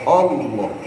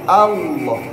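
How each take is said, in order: First: The first vowel sounds like 'o'. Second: The first vowel sounds like 'a'. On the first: The speaker calls it wrong. "Itu O" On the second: The speaker calls it right. "Tapi A"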